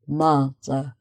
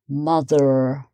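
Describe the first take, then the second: First: The final R sound is not pronounced. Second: The final R sound is clearly pronounced. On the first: "But in British English, um, you get mother" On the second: "an American might say mother, mother, and you get more of the R sound"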